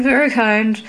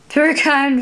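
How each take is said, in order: First: Closer to plain, light giggle on "very kind"; mild tittering echo; softer titter. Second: Lightly voiced tittering old fairy; tittering thanks. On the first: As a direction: let the repeat fall away. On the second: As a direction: giggle out the first "Very kind". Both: A narrator's reading. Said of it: "Berryminds tittered".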